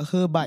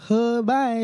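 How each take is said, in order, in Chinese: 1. 这个词的音高往下走。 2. 这个词的音高往上走。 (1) "他叫喝拜，要下去" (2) "会有点喝拜，会晚上"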